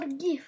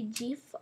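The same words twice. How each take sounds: First: "gif" starting like "give"; hard-g pronunciation. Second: "gif" with a soft J sound at the start; soft-g pronunciation. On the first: Gamer asking viewers which they say, "gif" with hard g. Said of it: "I say gif". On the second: Gamer asking viewers which they say, "gif" with soft g. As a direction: say "gif" like "jif". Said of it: "what do you say". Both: Shown as a demonstration.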